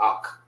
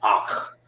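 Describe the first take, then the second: First: The word ends in a hard k sound. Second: The word ends in a throaty kh sound. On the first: The speaker calls it wrong. "Sound like you're saying it with a K" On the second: The speaker calls it right. "But it's Akh"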